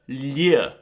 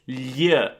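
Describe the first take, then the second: First: The L is harsh, scraping against the palate. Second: The L is harsh, scraping against the palate.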